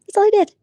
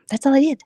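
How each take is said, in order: First: Higher, louder indignant repeat; exasperated, loud and high; indignant yell. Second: Said in the usual way. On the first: Real, not acted. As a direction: shout it in exasperation.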